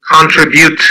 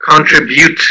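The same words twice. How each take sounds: Both takes have the same delivery.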